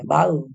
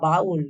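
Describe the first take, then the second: First: The word ends in a vowel, with no L. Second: The word ends with a clear final L sound. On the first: The speaker calls it wrong. "बाऊ नहीं बोलते हैं, जो जैसे देहाती भाषा में" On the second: The speaker calls it right. "बाउल याद रखना है"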